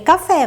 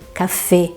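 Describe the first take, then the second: First: The final E vowel is open. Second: The final E vowel is closed. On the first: The speaker calls it wrong. "a gente tem tendência a ler café, mas não é" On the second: The speaker calls it right. "fecha o E"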